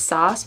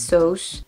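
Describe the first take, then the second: First: "sauce" with an open AH vowel; first variant. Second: "sauce" with a French-like long O; second variant. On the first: Learner weighing how she says it, open-vowel variant. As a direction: say "sauce" as "sahss". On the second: Learner weighing how she says it, long-O variant. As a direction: say "sauce" as "sohs". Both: Shown as a demonstration. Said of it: "I don't know how I'm saying it".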